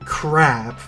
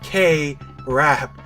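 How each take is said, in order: First: The two parts are run together quickly. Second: The two parts are said separately at normal speed.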